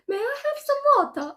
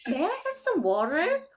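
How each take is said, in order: First: It is spoken in a British accent. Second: It is spoken in an American accent. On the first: "British accents are like" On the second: "And American accents are"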